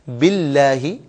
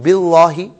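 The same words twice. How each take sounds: First: The L sound is thin and light. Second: The L sound is heavy and full. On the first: The speaker calls it right. "ये सही है" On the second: The speaker calls it wrong. "ये गलत है"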